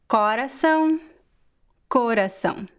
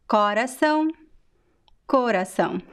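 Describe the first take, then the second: The two takes are said the same way.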